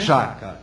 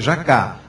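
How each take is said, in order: First: The stress is on the first syllable. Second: The stress is on the last syllable. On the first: The speaker calls it wrong. "não é jaca" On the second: The speaker calls it right. "A sílaba forte é a última"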